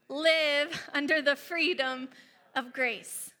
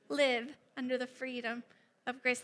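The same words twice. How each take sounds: First: It is said with stronger force and conviction. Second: It is said with ordinary, moderate force.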